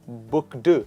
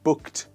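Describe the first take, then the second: First: The ending is not pronounced as a t. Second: The ending is pronounced as a t. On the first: The speaker calls it wrong. "It is not booked" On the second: The speaker calls it right. "the ed here is pronounced as t"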